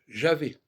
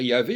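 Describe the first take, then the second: First: The word begins with a zh sound. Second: The word begins with a y sound. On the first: The speaker calls it right. "il faut dire Javé" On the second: The speaker calls it wrong. "Il ne faut pas dire Yahvé"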